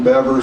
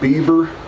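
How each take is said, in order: First: The first vowel is a short 'eh' sound. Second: The first vowel is a long 'ee' sound. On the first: This follows the spelling of the name. The speaker calls it wrong. "I had already got used to pronouncing John Bever" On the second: This is how people of his time said it. The speaker calls it right. "everybody pronounced it Beaver"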